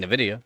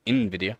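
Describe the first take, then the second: First: Nvidia said as "nuh-VID-ee-oh", first syllable a short weak nuh; own pronunciation. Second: Nvidia said as "in-VID-ee-oh", starting with a clear in; other pronunciation. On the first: Streamer showing chat how he says it, nvidia as nuh-vidia. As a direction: nvidia with a clipped schwa start, nuh-vidia. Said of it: "'Cause I'm saying nvidia". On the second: Streamer contrasting the way he doesn't say it, nvidia as in-vidia. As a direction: nvidia opened with a full in sound, in-vidia. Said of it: "not nvidia". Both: Shown as a demonstration.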